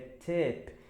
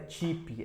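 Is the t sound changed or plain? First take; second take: plain; changed. First: The t is a plain, hard t sound. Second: The t is not a plain t sound. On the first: The speaker calls it right. "T com T" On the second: The speaker calls it wrong. "não é tip"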